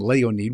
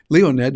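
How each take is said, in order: First: The name is said with a Russian pronunciation. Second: The name is said with an American pronunciation. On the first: "That's how you'd pronounce it in Russian" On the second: "We'd say Le- Leonid, Leonid here in the United States"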